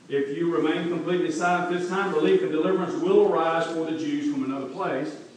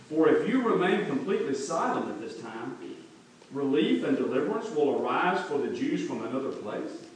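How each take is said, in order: First: It sounds like a confident statement of faith. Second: It sounds like a doubtful rhetorical question.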